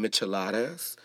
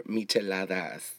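First: "micheladas" with an American English accent. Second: Spanish-accented "micheladas", corrected; Spanish pronunciation. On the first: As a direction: say "micheladas" anglicized, with a hard English d or t. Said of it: "saying it with an English accent". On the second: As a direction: say "micheladas" the Spanish way, with pure vowels. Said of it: "but they're micheladas". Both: Shown as a demonstration.

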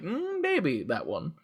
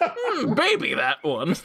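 First: Coy teacher. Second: High drawn-out coy voice; sultry maybe. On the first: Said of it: "And they're like". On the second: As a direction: purr it out teasingly. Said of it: "I thought you said, "Mm, maybe". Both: Pretend.

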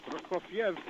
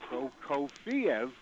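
First: Prokofiev said in three syllables, stress on KOF; correct pronunciation. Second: Prokofiev drawn out in four syllables, PRO-ko-fee-ev, slow; common mispronunciation. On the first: Caller demonstrating the right way to the hosts, three-syllable Prokofiev. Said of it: "Three syllables". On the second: Caller imitating how stations get it wrong, slow four syllables. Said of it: "but it's often pronounced". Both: Shown as a demonstration.

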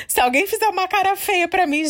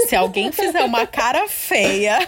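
First: "se alguém fizer uma cara feia pra mim" much higher, through a laugh; a giggly, high-pitched retake; higher, laughing repeat. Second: Said in the usual way. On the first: Shown as a demonstration. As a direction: repeat it higher, amused at her own nerves.

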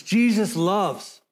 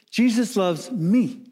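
First: Slow, deliberate weight on "Jesus" and "loves"; stress on Jesus loves. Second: Weight lands on "me" at the end; stress on me. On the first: Preacher correcting the emphasis, weight on "Jesus loves". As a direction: give "Jesus loves" the full emphasis, unhurried. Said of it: "the me is the minor part". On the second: Preacher showing how congregations sing it, stress on "me". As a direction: lean hard on "me", drawn out slowly. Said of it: "we emphasize the me". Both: Shown as a demonstration.

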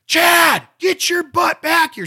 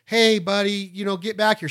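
First: Put-on loud high shout of the kid's name; mother's loud high shout, calling the child back; mom yelling. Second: Said in the usual way. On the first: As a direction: call the kid back like a mother. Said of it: "She's gonna go". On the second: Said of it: "your mom's not gonna go".

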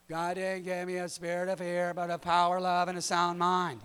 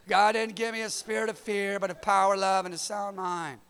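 First: Recited like children reciting, lightly voiced; kids reciting scripture. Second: Loud, proud recital of the verse; Nico's loud recital. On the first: Kids answering their dad with the memory verse, sing-song recital. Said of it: "That's how they say it". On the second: Retold or imitated. Son Nico reciting the verse to his dad, loud eager recital. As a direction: belt the memory verse out like an eager kid. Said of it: "So Nico said".

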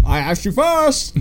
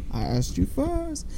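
First: Slow, high-pitched retort; mock argument with an echo, drawn out high; calling out. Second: High, slow, soft repeat; imitated echo. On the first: Fan acts the Grinch arguing with his echo, calling out. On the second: Fan plays the echo mimicking the retort, soft and high. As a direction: echo it back faintly from afar.

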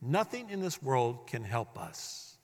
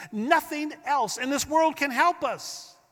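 First: Hushed, slowed restatement; soft slow echo. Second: Lifted high on the word world, pressing the point; raised, insistent preaching line; emphatic high declaration. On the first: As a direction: lower and softer, slow and settled. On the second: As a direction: proclaim it up high with conviction. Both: Acted. Preacher repeats key line.

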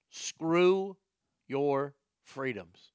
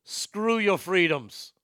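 First: Said in the usual way. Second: Put-on slow, lightly done Austrian accent; a hint of a big Austrian strongman; slow Austrian accent, leaning on your. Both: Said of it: "in a big Austrian accent".

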